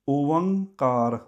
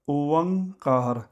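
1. v ਦੀ ਆਵਾਜ਼ ਪਹਿਲੇ ਦੋ ਸਵਰਾਂ ਨੂੰ ਜੋੜਦੀ ਹੈ। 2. v ਦੀ ਆਵਾਜ਼ ਪਹਿਲੇ ਦੋ ਸਵਰਾਂ ਨੂੰ ਜੋੜਦੀ ਹੈ।

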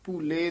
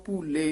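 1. ਪਹਿਲਾ ਸਵਰ ਲੰਮਾ ਹੈ, ਇੱਕ ਵਿਅੰਜਨ ਦੇ ਨਾਲ। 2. ਪਹਿਲਾ ਸਵਰ ਲੰਮਾ ਹੈ, ਇੱਕ ਵਿਅੰਜਨ ਦੇ ਨਾਲ।

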